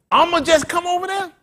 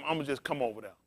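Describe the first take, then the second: First: High, loud incredulous repeat; mocking echo. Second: Said in the usual way. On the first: Preacher mocking the flock's careless plans with a loud echo. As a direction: throw the careless words back at them. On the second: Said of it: "I just told him".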